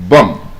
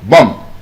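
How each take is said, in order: First: The final B is silent. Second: The final B is silent.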